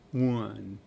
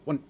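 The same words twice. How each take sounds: First: The word is drawn out over nearly a second. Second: The word is clipped very short and quick. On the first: "zero point eight is like one" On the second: "So I say really fast"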